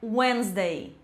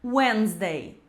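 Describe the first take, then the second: The two takes are said the same way.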